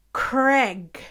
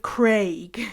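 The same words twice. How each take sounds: First: "Craig" said with a short e, like Greg with a C; North American Craig. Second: "Craig" with a long ay vowel; British Craig. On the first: Showing how Canadians say the name, short-vowel "Craig". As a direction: make Craig rhyme with leg. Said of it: "they say". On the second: Correcting to the British way, long-vowel "Craig". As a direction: make Craig rhyme with vague. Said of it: "instead of Craig". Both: Shown as a demonstration.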